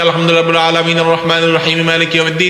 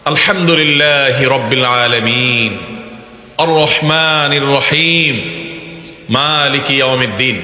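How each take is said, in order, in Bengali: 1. এটা এক নিঃশ্বাসে দ্রুত পড়া হয়, কোনো থামা থাকে না। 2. এটা ধীরে পড়া হয়, প্রতিটি আয়াতের পরে একটু থামা হয়। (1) "টান দিয়ে ... এক নিঃশ্বাসে পড়বেন" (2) "প্রত্যেকটা আয়াতের পরে থামাটা সুন্নাত"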